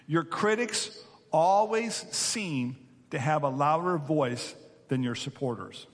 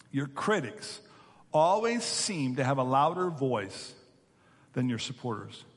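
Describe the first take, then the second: No difference in how they are said.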